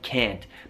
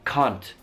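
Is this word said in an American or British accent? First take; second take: American; British. First: It has an American accent, vowel near e. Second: It has a British accent, vowel not flattened. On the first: "Io dico can't con la mia A molto pronunciata, A come una E quasi" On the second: "mentre loro direbbero can't"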